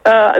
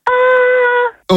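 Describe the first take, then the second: First: The vowel is low-pitched. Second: The vowel is high-pitched.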